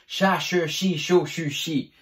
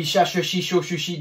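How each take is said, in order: First: Cha, che, chi in separate, even beats; measured articulation drill. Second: Cha, che, chi rattled off without gaps; rapid one-breath drill. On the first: Teacher showing C H with every vowel, measured demonstration. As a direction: give each syllable its own unhurried beat. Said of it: "Avec le C H". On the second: Teacher attempting the challenge, rapid-fire syllable chant. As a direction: race evenly through the syllables on one breath. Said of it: "d'une seule respiration". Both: Shown as a demonstration.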